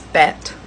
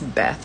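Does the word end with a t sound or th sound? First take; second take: t; th. First: The word ends with a crisp t sound. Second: The word ends with a soft th sound. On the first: The speaker calls it right. "but it's Bet" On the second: The speaker calls it wrong. "although I always pronounce this Beth"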